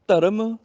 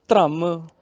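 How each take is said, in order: First: ਧਰਮ said "dha-ram", vowel before the r; full r. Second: ਧਰਮ said "dhramm", first consonant joined to r; half r. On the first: Teacher gives an example, ਧਰਮ as "dharam". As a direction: give ਧਰਮ a whole r. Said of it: "ਰਾਰਾ ਪੂਰਾ ਹੋ ਗਿਆ". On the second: Teacher gives the contrast, ਧਰਮ as "dhramm". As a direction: run straight into the r in ਧਰਮ. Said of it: "ਰਾਰਾ ਅੱਧਾ ਹੋ ਗਿਆ". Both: Shown as a demonstration.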